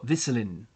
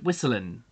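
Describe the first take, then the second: First: The name is pronounced with German sounds. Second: The name is pronounced with English sounds. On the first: "Or Whistlin, I guess, because it's German" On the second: "I'm just saying Whistlin"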